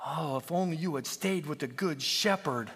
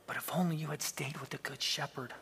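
First: Said in the usual way. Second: Soft, sad near-whisper; almost a whisper. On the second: A narrator's reading. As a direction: say it softly, grown sad. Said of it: "he said almost in a whisper".

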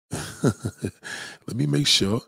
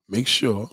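First: Very slow, laughing drawl; drawn out. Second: Said in the usual way. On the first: Shown as a demonstration. Host checks the stream audio, slow laughing repeat. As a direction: stretch every word out with a chuckle.

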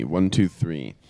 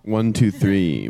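First: Said in the usual way. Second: Slow, deliberate mic check; slow count. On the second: Shown as a demonstration. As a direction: count slowly. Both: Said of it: "Can you say one, two, three".

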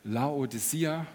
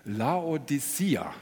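First: Slow careful pronunciation. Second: Slow, drawn-out Laodicea; very slow slimy snail voice. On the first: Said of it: "kannst du das auch mal sagen?". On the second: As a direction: stretch every syllable of Laodicea. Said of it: "jetzt muss ich ganz langsam sprechen". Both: Shown as a demonstration.

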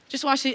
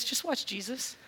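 First: Said in the usual way. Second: Much softer, hushed invitation on watch; pointing the listener to Jesus, hushed. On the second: Acted. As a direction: let Just watch Jesus fall to a hush. Repeated call to watch Jesus.

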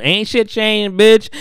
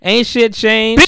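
First: Higher, sassy taunt; a high gloating "Ain't shit changed" that ends on a loud "bitch"; mock taunt. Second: Higher, louder and slow, stretching out "shit"; "Ain't shit changed" drawn out slow, high and loud; hammed-up gloat. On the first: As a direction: rub it in like a gloating robber. Gleeful robber taunting Issa. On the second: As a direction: drag the taunt out in a loud sing-song. Robber repeats the taunt louder.

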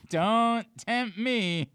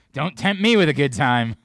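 First: Don't tempt me stretched slowly, higher; drawn-out tease. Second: Said in the usual way. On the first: Shown as a demonstration. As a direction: drag out "Don't tempt me" teasingly.

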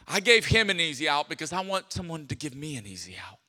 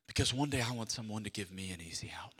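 First: Said in the usual way. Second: Low quick whisper; whispered confession. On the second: Acted. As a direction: confide it under your breath.

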